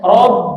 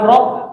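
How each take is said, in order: First: The word ends with a voiced b sound. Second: The word ends with a voiceless p sound. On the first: The speaker calls it right. "rob itu harus B ya" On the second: The speaker calls it wrong. "bukan P"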